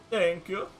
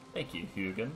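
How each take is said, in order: First: Much higher, louder Scandinavian voice; hammy Scandinavian thanks, pitched up; Scandinavian accent. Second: Said in the usual way. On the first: Acted. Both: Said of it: "put on this terrible Scandinavian voice".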